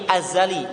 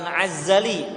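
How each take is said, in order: First: It begins with a plain glottal stop. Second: It begins with a throaty 'ain sound. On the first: It means eternal, without beginning. The speaker calls it right. "azali pakai hamzah" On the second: It is taken from the root of izzah, meaning glory. The speaker calls it wrong. "Bukan azali"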